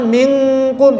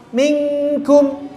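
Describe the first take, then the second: First: Minkum with heavy, thick kaf. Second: Minkum close to idhar, kaf thin and light. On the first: Teacher showing the wrong thick minkum. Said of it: "itu tebal". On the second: Teacher demonstrating thin Minkum. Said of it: "mirip idhar ya". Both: Shown as a demonstration.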